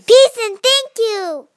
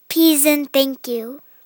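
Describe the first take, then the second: First: It is said in an excited way. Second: It is said in a calm, plain way.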